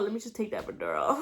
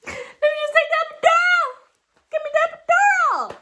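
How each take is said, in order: First: Said in the usual way. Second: Desperate shout. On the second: Retold or imitated. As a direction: scream the demand as if in labor pain. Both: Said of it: "And then I'm like".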